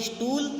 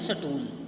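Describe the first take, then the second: First: It begins with a consonant cluster 'st'. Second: A vowel splits it into 'sa-tool'. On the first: This is how we say it. "हम बोलते हैं स्टूल" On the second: This is how another group says it. "वे बोलते हैं सटूल"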